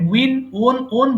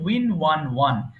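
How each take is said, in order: First: 'Won' is said with a long 'o' like 'own'. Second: 'Won' is said with a 'wuh' sound like 'one'. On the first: The speaker calls it wrong. "আমরা সারা জীবন দেখেন win ওন ওন বলেছি, এটা কিন্তু ওন হবে না" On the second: The speaker calls it right. "উচ্চারণ হবে win ওয়ান ওয়ান"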